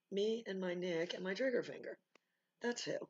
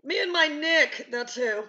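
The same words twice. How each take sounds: First: Softer, matter-of-fact retort; toned-down comeback. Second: High, drawn-out shouted retort; loud defiant comeback. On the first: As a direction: say it back quietly to the challenger. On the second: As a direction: belt it back at the challenger. Acted comeback to imagined challenge. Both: Acted.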